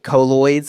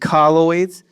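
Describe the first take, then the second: First: The word has a Southern-style pronunciation. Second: The word has a standard pronunciation. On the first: The speaker calls it wrong. "it's not colloids. I love to say colloids, but I'm from the South" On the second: The speaker calls it right. "So it's colloids"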